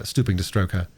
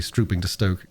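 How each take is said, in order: First: "stroke" said properly with the r, strohk; correction. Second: "stoke" read without the r, as stoh-k; slip: "stoke" said like stoke instead of stroke; misreading. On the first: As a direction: correct yourself: "stroke" with a clear r. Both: Real, not acted. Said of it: "uh, stooping to stroke her".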